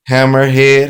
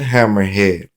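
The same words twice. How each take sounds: First: Hammerhead called out higher and louder; called-out keyword. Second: Said in the usual way. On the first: Shown as a demonstration. Teacher showing the phonics card, Hammerhead called out loud and high. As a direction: announce the card word Hammerhead loudly and high. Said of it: "phonics card keyword drill". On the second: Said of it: "repeat of card keyword".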